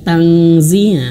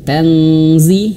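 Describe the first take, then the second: Both takes have the same delivery.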